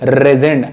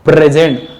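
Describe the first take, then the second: First: The word begins directly with the r sound. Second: The word begins with a clear p sound. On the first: "प को बोलना छोड़ दो... simply रेजेंट बोलना" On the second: "मैं गले से एक्सेल करते हुए प्रेजेंट"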